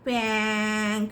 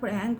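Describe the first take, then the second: First: The word is said without the r sound. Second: The word is said with an r sound. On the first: The speaker calls it wrong. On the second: The speaker calls it right.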